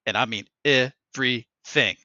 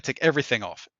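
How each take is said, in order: First: Everything slowed and split into separate syllables; "everything" drawn out piece by piece; stress on everything. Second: Said in the usual way. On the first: Retold or imitated. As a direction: imitate a stern reminder, spacing out each syllable of everything. Tech repeats the order for emphasis.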